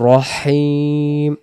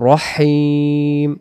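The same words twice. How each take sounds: The two takes are said the same way.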